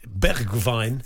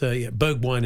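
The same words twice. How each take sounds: First: The name is said with a Dutch pronunciation. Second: The name is said with an English pronunciation. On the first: "It's a bit like Greta Thunberg in Dutch" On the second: "but it's Bergwijn in English"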